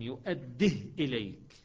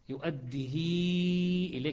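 First: The h has no vowel after it. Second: The vowel after the h is long. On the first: "يقرأ بإسكان الهاء" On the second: "صارت ياء كأنها"

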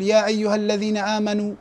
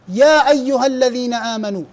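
First: The syllables 'ya' and 'ha' carry no stress. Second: The syllables 'ya' and 'ha' are stressed. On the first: The speaker calls it wrong. "ما أقول يا أيها الذين آمنوا دون النبرة" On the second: The speaker calls it right. "يعني الضغط على يا ها"

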